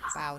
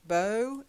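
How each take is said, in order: First: The vowel is an 'ow' sound. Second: The vowel is a long 'oh' sound. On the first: It means bending forward to bow down. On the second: It names the weapon used with an arrow.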